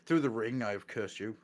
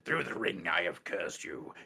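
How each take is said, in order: First: It is read in the speaker's ordinary voice. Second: It is read in a put-on demon voice. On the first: The speaker calls it wrong. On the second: The speaker calls it right.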